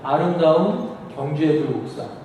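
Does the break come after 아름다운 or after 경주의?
after 아름다운. The break comes right after 아름다운. Bulguksa is beautiful. "불국사가 아름답다는 얘기고"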